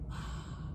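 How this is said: The sound is breathy air, hissing like steam. The speaker calls it right. "we say ah. Kind of sounds like steam"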